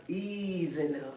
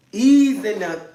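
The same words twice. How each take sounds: First: Much softer and slower, easing it out; gentle slow ease. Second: Louder, punchy ease in there; firm ease. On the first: Telling viewers to go slow, soft slow ease. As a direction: coax it softly, slowly. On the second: Warning viewers about the toy, firm louder ease. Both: Shown as a demonstration. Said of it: "I told you, go slow".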